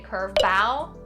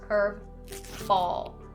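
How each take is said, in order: First: The final L sound is dropped. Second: The final L sound is pronounced. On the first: The speaker calls it wrong. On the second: The speaker calls it right.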